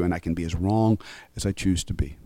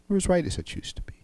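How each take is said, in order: First: Said in the usual way. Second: Breathy whisper, quick and hushed. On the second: Shown as a demonstration. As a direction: drop to a quick confiding whisper on as right. Plain wrong versus whispered right.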